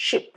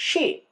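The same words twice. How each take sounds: First: Ship said with a short i vowel. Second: শিপ said with a long stretched ee; long ee in sheep. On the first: Teacher demonstrating ship with a short i. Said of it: "S H I P". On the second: Teacher showing how ship becomes sheep. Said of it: "S H double E P". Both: Shown as a demonstration.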